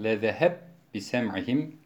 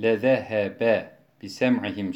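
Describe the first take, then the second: First: The two b sounds are merged into one. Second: The two b sounds are pronounced separately. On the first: This is another reciter's variant reading. "idgamı kebir yaparak" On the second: This is the common reading. "Biz lezehebe bisem'ihim şeklinde okurken"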